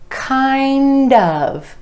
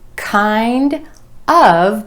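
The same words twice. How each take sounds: First: The d sound links onto the of. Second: The two words are said separately.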